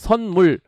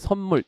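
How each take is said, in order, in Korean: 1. 첫 음절은 n 소리로 끝나요. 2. 첫 음절은 m 소리로 끝나요.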